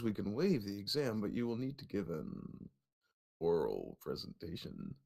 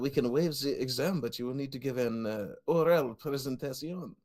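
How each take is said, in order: First: It is read in a creepy put-on voice. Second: It is read in a put-on French accent. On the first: "I can read it in my creepiest voice possible" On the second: "I could have read it in a French accent"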